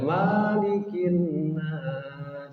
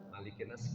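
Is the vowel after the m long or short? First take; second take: long; short. First: The vowel after the m is long. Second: The vowel after the m is short. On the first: The speaker calls it wrong. "nggak boleh" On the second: The speaker calls it right.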